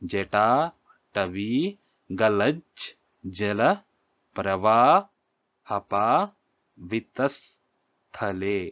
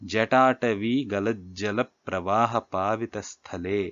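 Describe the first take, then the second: First: The line is broken into short metrical chunks. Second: The line is grouped by whole words.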